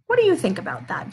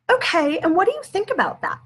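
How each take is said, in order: First: Said in the usual way. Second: Higher prompt. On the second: Shown as a demonstration. Parent asking child about cousin's anger, higher bright question. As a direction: question lifted well above her usual pitch. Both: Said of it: "Danielle, say".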